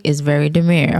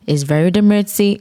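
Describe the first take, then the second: First: Said in the usual way. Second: "demurtsy" said as de-MURT-see with a joking extra syllable; playful mispronunciation. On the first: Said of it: "It's very demurtsy". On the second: Shown as a demonstration.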